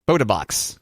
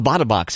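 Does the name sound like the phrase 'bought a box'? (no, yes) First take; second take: no; yes. First: The name does not sound like 'bought a box'. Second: The name sounds like the phrase 'bought a box'. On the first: The speaker calls it right. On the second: The speaker calls it wrong.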